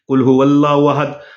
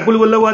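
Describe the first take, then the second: First: It is recited slowly and calmly. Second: It is recited quickly and hurriedly.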